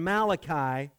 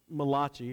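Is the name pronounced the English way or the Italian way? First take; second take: English; Italian. First: The name has a plain English pronunciation. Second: The name has an Italian-sounding pronunciation.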